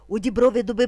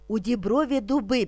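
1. Вимовляється дуже швидко. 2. Вимовляється помірно швидким темпом. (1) "І дуже швидко" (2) "Тепер трошки швидше"

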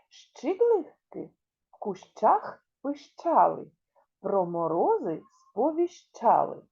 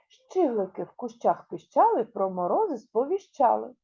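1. Її вимовляють повільно, уважно. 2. Її вимовляють трохи швидше.

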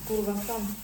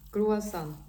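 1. Вимовляється спотворено, починається на 'kurva'. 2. Вимовляється правильно, починається на 'krua'. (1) "Я оце так кривляюся" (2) "по-правильному"

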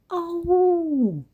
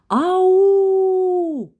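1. Поклик кажуть тихо. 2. Поклик кричать голосно. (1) "А потім тихо" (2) "Спочатку голосно"

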